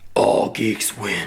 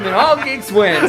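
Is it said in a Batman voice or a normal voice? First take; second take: Batman voice; normal voice. First: It is said in a deep Batman voice. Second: It is said in his normal speaking voice.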